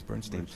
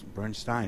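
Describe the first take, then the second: First: The last syllable sounds like 'steen'. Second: The last syllable sounds like 'stine'. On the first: It is the original form from childhood. "as a child everybody known him as Bernstein" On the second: It is the German form chosen for more prestige.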